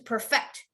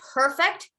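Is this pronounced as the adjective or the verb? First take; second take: verb; adjective. First: It is said with the verb pronunciation. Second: It is said with the adjective pronunciation. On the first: It means to make something better through practice. "To perfect is if I, I play the violin" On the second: It means done without fault. "Perfect means you did, ... that was perfect"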